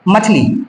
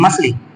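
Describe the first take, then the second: First: The middle consonant is a 'ch' sound. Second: The middle consonant is an 's' sound. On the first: The speaker calls it right. "मछली होता है" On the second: The speaker calls it wrong. "छा की जगह सा"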